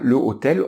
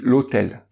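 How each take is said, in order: First: The article is said in full before the noun. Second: The article is elided into the noun. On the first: The speaker calls it wrong. "on dit pas le hôtel" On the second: The speaker calls it right. "on dit l'hôtel"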